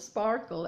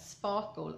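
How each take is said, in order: First: It is said with an American accent. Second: It is said with a British accent. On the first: "as you would say in America" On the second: "I got this British English"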